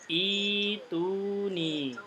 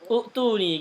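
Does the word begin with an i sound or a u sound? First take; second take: i sound; u sound. First: The word begins with a long i sound. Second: The word begins with a u sound. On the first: The speaker calls it right. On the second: The speaker calls it wrong.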